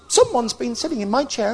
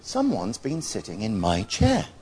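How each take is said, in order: First: The voice is small, high and squeaky. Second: The voice is soft and gentle. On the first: "in a small, squeaky baby voice" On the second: "in her graceful, gentle voice"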